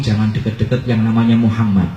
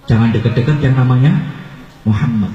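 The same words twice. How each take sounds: First: Said in the usual way. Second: NAMANYA lifted at the end, pause, then low MUHAMMAD; emphatic warning. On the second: Acted. Old man warning a visitor, emphatic with a suspenseful pause. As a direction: hold back the name after a rising namanya, then drop it.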